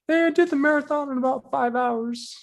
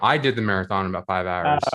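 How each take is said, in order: First: It is said in a high voice. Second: It is said in a lower voice.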